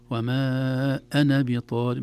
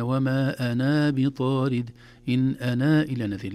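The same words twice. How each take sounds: First: وما أنا with a short second a in أنا, slow and louder; short ana. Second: أنا with the final alif drawn out long; wrong long ana. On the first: Teacher models reading أنا short. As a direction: keep أنا short, no long alif. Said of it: "ما قلنا". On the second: Teacher shows the long alif to avoid. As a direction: stretch the alif of أنا, the mistake. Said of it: "لا، ما قلنا هكذا". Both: Shown as a demonstration.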